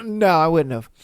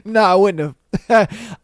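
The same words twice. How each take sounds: First: Said in the usual way. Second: Said through real laughter, a touch slower; laughing admission. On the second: Real, not acted. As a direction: laugh as you admit it.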